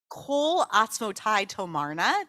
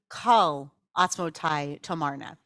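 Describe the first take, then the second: First: The first word has an 'o' vowel, like 'coal'. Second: The first word has an 'a' vowel, like 'call'. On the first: This is the common way of saying it. "That's usually how we pronounce it" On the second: Some claim this is the proper way of saying it. "some people claim that the pronunciation of this line should be"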